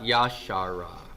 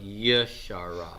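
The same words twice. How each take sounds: First: The first vowel is a full 'a' sound. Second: The first vowel is a short reduced sound. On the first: The speaker calls it wrong. "Not Yashara" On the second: The speaker calls it right. "but Yashara"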